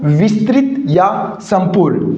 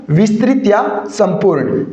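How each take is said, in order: Both takes have the same delivery.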